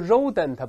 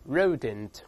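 First: The first sound is like the Chinese 'ri'. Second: The first sound is an English r, tongue curled. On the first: The speaker calls it wrong. "不要读rodent, 不是发日" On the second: The speaker calls it right. "还舌尖勾回来，把r 在里面rodent"

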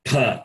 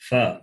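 First: The first consonant is a p with air. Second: The first consonant is an f sound. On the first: This is the Sanskrit pronunciation of the letter. The speaker calls it right. "But in Sanskritam, it is pa" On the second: This is the Hindi pronunciation of the letter. The speaker calls it wrong. "In Hindi, it is called fa"

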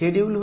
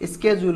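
First: It starts with sh, British style. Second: It starts with sk, American style. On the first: "শেডিউল হচ্ছে British" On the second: "স্কেজুল হচ্ছে American pronunciation"

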